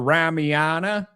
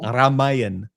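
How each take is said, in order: First: The final vowel is pronounced. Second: The final vowel is dropped. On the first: "I've read the Ramayana" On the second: "what's the A on the end for then"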